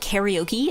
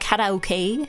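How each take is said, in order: First: The word is pronounced with English sounds. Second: The word is pronounced with Japanese sounds. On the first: "It's not a karaoke" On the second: "actually, it's a karaoke"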